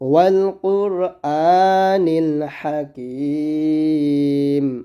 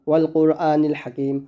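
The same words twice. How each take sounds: First: The phrase is recited at a slow pace. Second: The phrase is recited at a quick pace. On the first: This pace is for reciting once memorized. "মুখস্থ হয়ে গেলে তখন ধীরে ধীরে পড়বেন" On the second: This pace is for memorizing. "মুখস্থ করার সময় একটু তাড়াতাড়ি পড়বেন"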